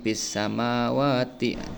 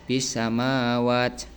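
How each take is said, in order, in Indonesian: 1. Bacaan berlanjut dan huruf vokal akhir tetap dibaca. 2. Bacaan berhenti dan huruf vokal akhir dihilangkan. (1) "itu kalau diwasol" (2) "kalau diwaqaf"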